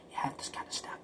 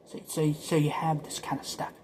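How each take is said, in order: First: Whispered echo of the line before. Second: Said in the usual way. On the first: Shown as a demonstration. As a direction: repeat it under your breath. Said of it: "whispered echo of the previous line". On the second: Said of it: "plain take before the whispered echo".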